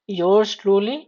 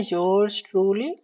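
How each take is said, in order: First: Said in the usual way. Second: Yours truly said slowly, each word drawn out; teacher repeats yours truly slowly for students writing shorthand, slow and clear; slow dictation. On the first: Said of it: "उसके बाद हम लोग देखेंगे". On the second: Shown as a demonstration. Dictating yours truly at slow writing speed. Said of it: "ठीक है, yours truly".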